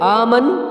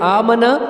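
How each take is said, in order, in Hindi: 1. शब्द अंतिम स्वर के बिना रुकता है। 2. "न" की ध्वनि एकल है और छोटी है। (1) "आमन तो भी गलत है" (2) "इस तरह पढ़ते आमना तो भी गलत है"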